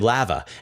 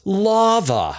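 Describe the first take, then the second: First: The word is said in a Canadian way. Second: The word is said in an American way. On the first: "as a West Coast Canadian, I say lava" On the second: "it drives Americans bananas... no, dummy, it's lava"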